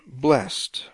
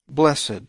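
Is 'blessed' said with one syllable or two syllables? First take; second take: one syllable; two syllables. First: The word is said with one syllable. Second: The word is said with two syllables. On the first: Being made happy. The speaker calls it right. "The word technically is blessed, past tense of bless" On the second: Being elevated and deified. The speaker calls it wrong. "many times this word blessed, B-L-E-S-S-E-D, is pronounced blessed"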